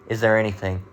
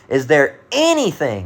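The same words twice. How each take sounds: First: The word 'anything' carries no special emphasis. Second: The word 'anything' carries strong emphasis. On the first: The speaker calls it wrong. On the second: The speaker calls it right. "that's how that would be pronounced in, in in italics"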